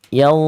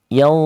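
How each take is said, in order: Both takes have the same delivery.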